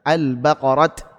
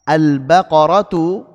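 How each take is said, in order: First: The word ends on a bare t sound. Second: The word ends with a t plus vowel. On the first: The reader stops on the word. "ketika waqaf juga dibaca dengan ta" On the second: The word is read joined to what follows. "ketika wasal dibaca dengan ta"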